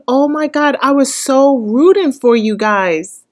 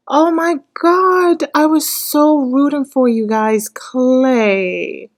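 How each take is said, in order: First: Louder, higher exclamation of letdown; disappointed outburst. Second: Higher, slower, drawn-out wail; wailing lament. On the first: Viewer telling the couple she rooted for them, louder letdown. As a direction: blurt out the letdown. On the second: Viewer repeating the letdown to the couple as a slow high wail. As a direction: stretch it out like a heartbroken whine. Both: Real, not acted.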